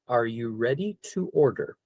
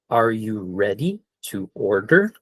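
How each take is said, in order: First: It is said at normal speed. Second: It is said slowly.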